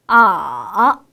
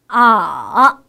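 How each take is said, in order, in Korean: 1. 음이 낮게 내려갔다가 살짝 올라갑니다. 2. 음이 낮게 내려갔다가 살짝 올라갑니다.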